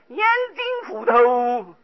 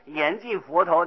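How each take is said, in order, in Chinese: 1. 这句话是用湖北口音说的。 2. 这句话是用标准口音说的。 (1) "就念成严禁佛头" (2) "他是严禁佛头"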